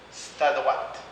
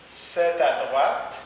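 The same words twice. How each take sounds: First: "c'est" said as "st" in "c'est à droite"; spoken st before à. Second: Said in the usual way. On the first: Shown as a demonstration. Teacher models reduced "c'est à droite". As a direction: say "st à droite", vowel dropped. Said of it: "on le prononce parfois st". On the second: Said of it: "on le prononce parfois".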